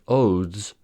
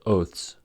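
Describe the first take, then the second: First: The th before the s is voiced. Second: The th before the s is voiceless. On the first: "relates to the grammar in Old English" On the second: "since oath is pronounced oath, oaths is pronounced oaths"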